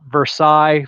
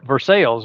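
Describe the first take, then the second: First: The name is pronounced in the French way. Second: The name is pronounced in an Americanized way. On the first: It names the city in France. "y'all say Versailles, France" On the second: It names the towns in the United States. "it's an Americanized pronunciation"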